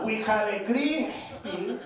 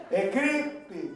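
First: "crispy" drawn out very slowly; said slower. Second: "creepy" split with a pause, "cree-py"; pause inside creepy. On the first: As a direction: stretch "crispy" deliberately. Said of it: "Say it slower". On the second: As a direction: break "creepy" in two. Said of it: "You just put a pause in the middle". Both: Retold or imitated.

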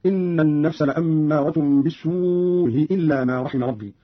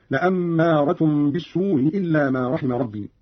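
First: Slow, "بالسوء إلا" with long uu and softened glottal stop; softened hamza, long madd. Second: Slow, "بالسوء إلا" with softened hamza after shorter uu; softened hamza, shorter madd. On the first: Teacher showing Qalun's madd, "بالسوء" long with softened hamza. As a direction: draw out "بالسوء" and ease its hamza before "إلا". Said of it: "بتسهيل الهمزة الأولى مع المد والقصر". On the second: Teacher showing Qalun's qasr, "بالسوء" shorter with softened hamza. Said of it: "مع المد والقصر". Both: Shown as a demonstration.

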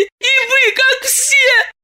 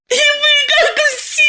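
First: High, hurt reproach; tearful reproach. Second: High, full crying shout on вы; shouted reproach. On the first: Masha accusing Diana, high hurt reproach. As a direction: say it hurt, still holding back. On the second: Masha screaming at Diana, high crying shout. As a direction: throw it at her with full force. Repeated, louder. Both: Acted.

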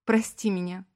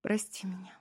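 First: Wife weeping, asking forgiveness; tearful plea. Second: Whispered, tearful sorry; crying wife whispers forgiveness plea. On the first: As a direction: beg forgiveness through tears. She starts crying. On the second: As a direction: breathe the apology through tears. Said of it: "шепча". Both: A narrator's reading.

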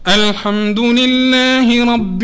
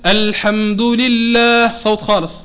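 First: الحمد لله رب drawn out slowly through the nose; deliberately nasal, slow recitation of الحمد لله رب; nasalized reading. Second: Clean, open الحمد لله, slow; clear without nasality. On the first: Teacher demonstrating nasal reading to students. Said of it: "نتعمد نقرأ بالغنة". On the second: Teacher showing the clear voice after the nasal one. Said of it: "نهبط اللهات باش نخلي مجال للصوت". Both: Shown as a demonstration.

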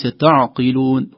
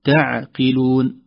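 First: تعقلون with a heavy, emphatic ع and ت; the wrong, heavy تعقلون; wrong reading. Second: تعقلون slow with a light ع and ت; the correct, light تعقلون; correct reading. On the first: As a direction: read تعقلون too heavily, as a mistake. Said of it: "وليس تعقلون". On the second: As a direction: read تعقلون with thin, light letters. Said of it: "ترقيق العين، ترقيق التاء". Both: Shown as a demonstration.

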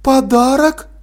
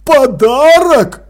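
First: «Подарок?» с подъёмом, недоверчиво; переспрашивает в недоумении; недоумённо. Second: «Подарок?» медленно, громко, выше, с падением; в ужасе переспрашивает. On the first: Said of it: "не поняла мать". (мать недоумённо переспрашивает «Подарок?») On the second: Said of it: "с ужасом переспросил Крохобор". (Крохобор в ужасе переспрашивает «Подарок?») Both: Acted.

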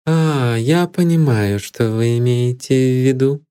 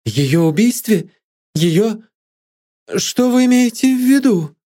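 First: Composed, unemotional reply; calm, dispassionate acknowledgement; impassive. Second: High-pitched cry of shock; acted outcry, pitch shooting up; sudden cry. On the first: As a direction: say it with cool detachment. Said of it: "бесстрастно произнесла она". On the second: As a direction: burst out in shocked, climbing questions. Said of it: "с внезапным криком". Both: A narrator's reading.

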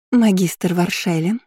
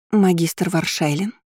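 First: Slow, drawn-out sweet address; sugary voice. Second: Slow, hushed-in-awe exhaled address; breathed out. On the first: Student straightening from a bow to the professor, sweet voice. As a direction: sweeten the title to win favour. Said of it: "сладким голосом, продолжила Армелия". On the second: Student suddenly facing the approaching professor, exhaling his name. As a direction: let the title out slowly on a breath. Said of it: "выдохнула Армелия". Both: A narrator's reading.

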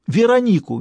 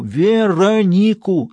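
First: High, loud shouted name; panicked shout. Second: Slow, high, loud stretched-out name; drawn-out shout. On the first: Stas yelling the name down the phone, panicked. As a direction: yell the name out. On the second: Stas repeating the name slowly down the phone, shouting. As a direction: drag the name out, each syllable loud. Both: Acted.

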